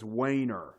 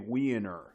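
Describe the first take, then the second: First: The first vowel sounds like 'way'. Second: The first vowel sounds like 'wee'. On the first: This is how the screen reader says it now. "Now it says Wayner" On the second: This is how it used to be said. "You used to say Wiener"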